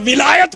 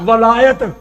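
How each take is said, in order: First: The first vowel is a short 'i' sound. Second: The first vowel is an open 'a' sound. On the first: It means caliphate. "वाओ के नीचे कसरा और जेर" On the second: It means lordship. "वाओ के ऊपर फतह डाली जाए, यानी वलायत पढ़ा जाए"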